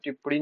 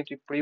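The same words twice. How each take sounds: First: टिप्पणी as the wrong example; rejected form. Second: Said in the usual way. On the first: Shown as a demonstration. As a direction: say टिप्पणी quickly in its rejected spelling. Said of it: "नहीं". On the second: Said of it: "होता है".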